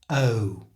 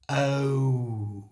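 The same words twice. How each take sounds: First: The sound is said quickly and naturally. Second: The sound is drawn out slowly.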